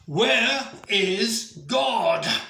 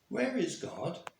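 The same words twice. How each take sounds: First: It is said loudly, in an irate voice. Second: It is said in a calm, plain voice.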